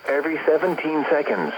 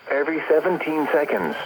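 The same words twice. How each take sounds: The two takes are said the same way.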